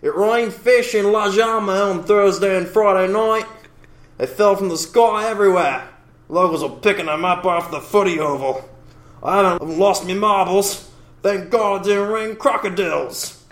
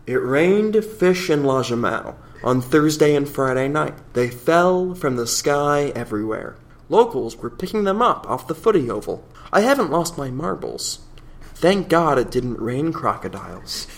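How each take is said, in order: First: Higher, hammed-up Aussie local; Australian accent. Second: Measured received pronunciation English reading. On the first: Host reading a local's fish-rain account to cohost, Australian accent. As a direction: read it as a broad, put-on Australian eyewitness. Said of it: "read it in an Australian accent". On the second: Acted. Host redoing the fish account for contrast, received pronunciation. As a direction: read it in careful, regular RP English. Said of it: "regular received pronunciation English here".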